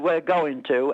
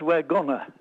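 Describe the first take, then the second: First: Going to is said in full. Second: Going to is reduced to gonna. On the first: The speaker calls it right. "instead of saying the word we're going to" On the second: The speaker calls it wrong. "everybody says we're gonna. Well, a gunner's a man in the army"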